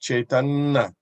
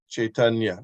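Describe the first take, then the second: First: The n is held long without a y. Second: A y sound follows the n. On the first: This is the Bengali pronunciation. "you don't hear the Y. It's just Chaitanya" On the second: This is the Sanskrit pronunciation. "if you say Sanskrit, you pronounce the Y"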